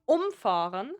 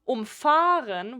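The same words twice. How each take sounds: First: The stress is on the first syllable. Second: The stress is on the second syllable. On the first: "the emphasis is on um" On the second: "the emphasis is very obviously umfahren, like on fahren"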